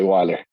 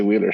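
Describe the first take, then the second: First: "Weiler" with a long I, rhyming with "miler"; usual easier pronunciation. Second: "Wheeler" with a long EE in the first syllable; true name pronunciation. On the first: Speaker gives the surname they usually use, "Weiler" said with long I. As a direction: say "Weiler" as WHY-ler. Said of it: "so we usually say Weiler". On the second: Speaker explains the surname people get wrong, "Wheeler" said with EE. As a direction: say "Wheeler" as WEE-ler. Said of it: "pronounce it wrong if I say". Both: Shown as a demonstration.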